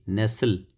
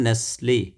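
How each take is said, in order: First: नेस्ल ending on the l; नेस्ल as "nessel"; final vowel silent. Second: नेस्ले ending on a clear "lay"; नेस्ले as "nes-lay"; final vowel sounded. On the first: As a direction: drop the last e in नेस्ल. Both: Shown as a demonstration. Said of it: "इस तरह बोलते हैं".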